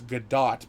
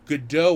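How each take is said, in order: First: The name is said without the French pronunciation. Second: The name is said with the French pronunciation. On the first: "because she's not" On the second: "would be the French pronunciation"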